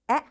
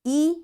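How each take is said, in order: First: The vowel is given its short sound. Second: The vowel is given its long sound.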